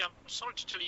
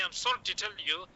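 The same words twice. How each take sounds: First: Much softer, gently breaking bad news; soft sincere delivery. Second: Said in the usual way. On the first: Shown as a demonstration. Doctor breaking bad news to a family, softly and sincerely. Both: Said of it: "tell that, okay".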